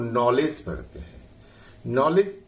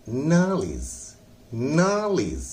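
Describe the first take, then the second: First: नॉलेज said with an open ऑ and a j ending; wrong pronunciation. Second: नॉलेज said as nalij with stress on नाल; correct pronunciation. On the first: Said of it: "उसकी pronunciation सही नहीं है". (गलत उच्चारण नॉलेज) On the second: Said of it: "आज के बाद आप पढ़ेंगे". (सही उच्चारण नॉलेज) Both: Shown as a demonstration.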